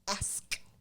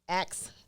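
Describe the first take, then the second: First: The s sound comes before the k sound. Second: The k sound comes before the s sound. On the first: This is the standard form. "standard English is ask" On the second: This is the speaker's own everyday form. "I thought those was normal"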